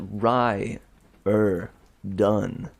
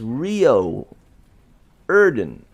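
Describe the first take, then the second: First: The first syllable sounds like 'rye'. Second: The first syllable sounds like 'ree'. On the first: "How is it Rye er done? It looks nothing like that" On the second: "It is Rio Erden"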